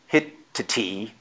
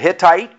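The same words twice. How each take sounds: First: The ending is pronounced as a plain T. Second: The ending is pronounced like 'ite'. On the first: This is the original-language way of saying it. "in the original language, they would be a T" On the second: This is the modern way of saying it. "I'm going to pronounce these in the more newer vernacular"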